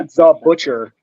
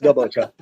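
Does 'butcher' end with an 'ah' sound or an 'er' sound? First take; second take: er; ah. First: The word ends with a clear 'er' sound. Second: The word ends with an open 'ah' sound. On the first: It sounds like the ordinary job title. The speaker calls it wrong. "can't just be the butcher" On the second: It sounds like a tough street nickname. The speaker calls it right. "It's okay if you say it with just the A at the end"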